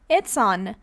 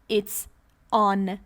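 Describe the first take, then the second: First: The two words run together with no pause. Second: A short pause separates the two words. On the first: The speaker calls it right. "I say" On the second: The speaker calls it wrong. "I don't say, ... No pause. Link them"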